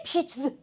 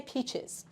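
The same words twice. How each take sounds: First: "peaches" with the ending crammed into the ch, no vowel; wrong peaches. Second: "peaches" in two syllables, ending in "iz"; correct peaches. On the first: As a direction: say "peaches" as one squashed syllable, a buzz after ch. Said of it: "can you say peaches? No, you need". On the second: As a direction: give "peaches" a clear short vowel before the final z. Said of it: "you need to say peaches". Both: Shown as a demonstration.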